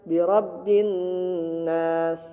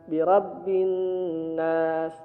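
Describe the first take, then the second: The two takes are said the same way.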